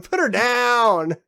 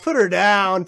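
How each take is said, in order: First: Drawn-out loud, higher repeat; slow mock command. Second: Loud joking order to put her down; mock command. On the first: Drawing out the mock order about the girl. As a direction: stretch the order out, louder, like a dramatic demand. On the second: A loud mock order about the girl. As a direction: bark it like a cop with a target.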